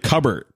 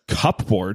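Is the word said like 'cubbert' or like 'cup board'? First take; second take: cubbert; cup board. First: It is said the usual way, like 'cubbert'. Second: It is read letter by letter as 'cup board'. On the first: The written word is recognized as the familiar one. "And then like" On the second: The word is being read from its spelling. "the first time I saw it written out, I was like"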